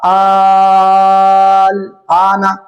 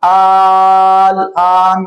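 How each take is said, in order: First: The word is read with its final vowel. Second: The word stops short, without its final vowel. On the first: The word is read joined to what follows. "जब आपने पढ़ा आल आना" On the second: The reader pauses at this word. "अगर आप वक्फ कर दें"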